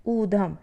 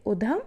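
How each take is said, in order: First: ऊधम with a long drawn ऊ; correct long u. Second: उधम with a short उ; wrong short u. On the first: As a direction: stretch the ऊ in ऊधम. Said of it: "शुद्ध है ऊधम". (ऊधम में लंबा ऊ) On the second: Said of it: "अशुद्ध है उधम". (उधम में छोटा उ) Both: Shown as a demonstration.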